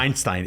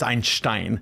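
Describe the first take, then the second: First: The name is said in an American way. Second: The name is said in a German way.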